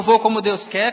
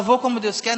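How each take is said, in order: First: Louder mock of a sad, resigned reply; imitated sadness. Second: Mildly sad, resigned mock voice; imitated sad reply. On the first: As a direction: parody the gloomy answer, pushing it out. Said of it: "com essa tristeza". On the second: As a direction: sound defeated saying it. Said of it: "numa tristeza".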